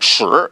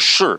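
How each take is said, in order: First: The pitch rises from middle to high. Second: The pitch falls sharply from high to low. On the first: It means ten. "segundo tom significa dez" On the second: It means yes. "significa sim"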